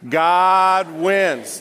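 It is said with strong, believing conviction.

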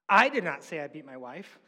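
The stress falls on the first word I. Someone else said it. "Someone else said it. I didn't say it"

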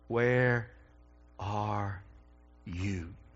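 The voice sounds broken and sorrowful. A grieving seeker is longing for the lost one. The speaker calls it right. "you probably need to hear it with brokenness in the voice"

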